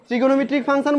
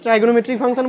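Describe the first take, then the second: First: The first syllable is said like 'trig'. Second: The first syllable is said like 'try'. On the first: "ট্রিগোনোমেট্রিক function বলতে পারিস" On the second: "ট্রাইগোনোমেট্রিক function বলতে পারিস"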